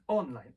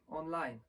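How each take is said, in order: First: The stress is on the first syllable. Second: The stress is on the second syllable. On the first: "wszyscy mówią online" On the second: "słowo online ma akcent na drugą sylabę w języku angielskim"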